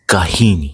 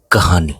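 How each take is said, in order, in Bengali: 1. মাঝের স্বরধ্বনিটি 'ee'-এর মতো শোনায়। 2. মাঝের স্বরধ্বনিটি 'ah'-এর মতো শোনায়। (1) "The name of the poetry is Kahini" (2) "If we pronounce it in Hindi, it will be sound like Kahani"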